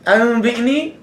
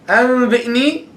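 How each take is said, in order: No difference in how they are said.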